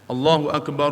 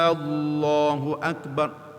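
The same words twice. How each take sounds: First: The opening vowel of 'Allahu' is kept short. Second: The opening vowel of 'Allahu' is drawn out long. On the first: The speaker calls it right. "tu betul" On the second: The speaker calls it wrong. "tak boleh kita panjang hamzah. Alif Allah tak boleh panjang"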